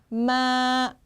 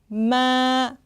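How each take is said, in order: First: The pitch stays level and long. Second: The pitch stays level and long.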